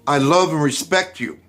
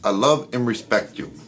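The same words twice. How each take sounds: First: It is said firmly, with steady conviction. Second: It is said offhandedly, undercutting the words. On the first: The words are truly meant. The speaker calls it right. "that's a level of conviction without flipping" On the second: The words are not really meant. The speaker calls it wrong. "I'm giving verbal and nonverbal communications that deflect that"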